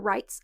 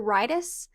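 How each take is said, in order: First: The word is said with one syllable. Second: The word is said with two syllables. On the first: "not the rights of the starling" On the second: "they kept saying the rightus, like right s"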